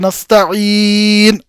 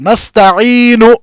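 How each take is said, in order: First: The final vowel is dropped completely. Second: The final vowel is pronounced fully and clearly. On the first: "नून को आपने सुकून में तब्दील कर दिया" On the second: "इस हरकत को पूरा पूरा अदा किया जाएगा"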